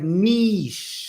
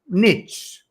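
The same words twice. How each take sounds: First: It is said with the non-American pronunciation. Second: It is said with the American pronunciation. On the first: The speaker calls it right. "It really is like niche" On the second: The speaker calls it wrong. "It's not like this. It's not niche. That's a different thing"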